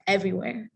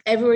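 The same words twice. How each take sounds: First: Said in the usual way. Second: Everywhere said louder and punched; emphatic Everywhere, said loud to stress the point. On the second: Real, not acted. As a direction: hit the word Everywhere hard to drive it home. Repeats everywhere, then stresses it.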